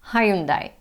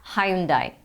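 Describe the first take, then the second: First: It is said with a British pronunciation. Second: The same.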